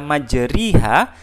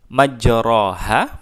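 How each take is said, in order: First: The vowel after majr- is a clear i. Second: The vowel after majr- is an open a. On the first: "tapi tidak kita baca kasrah, tidak kita majriha" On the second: "majroha kita miringkan ke arah kasrah"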